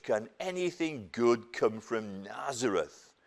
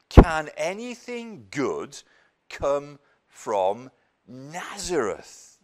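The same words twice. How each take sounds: First: Said in the usual way. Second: Slow, louder sneer with a rise on anything; scornful disbelief. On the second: Acted. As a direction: drag it out as if nothing good could come from such a backwater. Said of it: "It was a real backwater".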